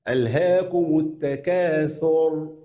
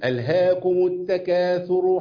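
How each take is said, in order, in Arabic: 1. الراء الأخيرة ساكنة، مع الوقف. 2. الراء الأخيرة عليها ضمة، والكلام متصل. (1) "طب إذا وقفت عليها بسكنها" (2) "لو أنا هوصل أقول إيه؟ ... مرفوع في الوصل"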